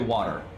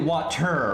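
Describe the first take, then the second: First: The middle T sound is dropped. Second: The middle T sound is clearly pronounced. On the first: "most Americans will say water" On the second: "You're supposed to say water"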